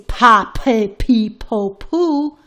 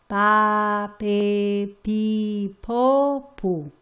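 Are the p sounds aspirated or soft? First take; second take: aspirated; soft. First: The p sounds release a strong puff of air. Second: The p sounds are soft, without a puff. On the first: The speaker calls it wrong. "You don't say pa, pe, pi, po, pu, because that is not Spanish" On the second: The speaker calls it right. "We are going to say it very soft"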